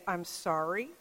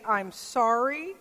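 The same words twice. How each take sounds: First: Un "I'm sorry" más bajo y suave; soft apology. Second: Slow instruction. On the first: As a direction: decir "I'm sorry" suave y bajito, ya sin enojo. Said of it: "he could say". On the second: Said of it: "And so the father said". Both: Retold or imitated.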